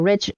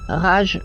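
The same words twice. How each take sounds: First: The word has an English pronunciation. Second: The word has a French pronunciation. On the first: "j'aime bien prononcer à l'anglaise" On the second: "en français, ça se dirait plutôt Rage"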